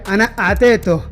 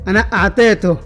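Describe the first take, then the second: The two takes are said the same way.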